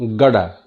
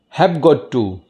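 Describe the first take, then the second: First: The words blend into one reduced word. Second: Each word is said separately and in full.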